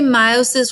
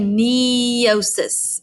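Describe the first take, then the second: First: It is said with a twang, sounding like mitosis. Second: It is said with a clearly emphasized E sound. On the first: The speaker calls it wrong. "with a southern twang, it sounds like mitosis" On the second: The speaker calls it right. "I emphasize the E in meiosis"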